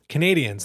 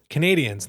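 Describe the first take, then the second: First: It sounds like the English word Canadians. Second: The same.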